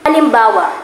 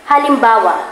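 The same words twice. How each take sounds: Both takes have the same delivery.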